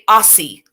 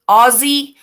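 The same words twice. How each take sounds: First: The middle consonant is a hissing S sound. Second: The middle consonant is a buzzing Z sound. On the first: "like the, the S sound" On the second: "do you use a Z sound"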